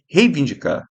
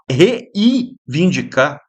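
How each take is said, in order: First: The first vowel pair is one gliding syllable. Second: The first vowel pair is split into two syllables. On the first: The speaker calls it right. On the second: The speaker calls it wrong.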